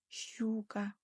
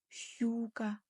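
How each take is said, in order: The two takes are said the same way.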